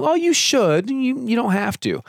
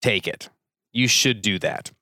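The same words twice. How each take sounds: First: Much higher, light and loose; permissive shrug. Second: Firm motherly nudge. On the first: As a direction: offer it as if it really doesn't matter. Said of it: "they're not saying". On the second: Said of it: "What they're really saying". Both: Shown as a demonstration.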